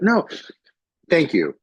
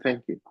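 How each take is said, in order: First: The end stays strong with a wide-open mouth. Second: The end fades with the mouth closing.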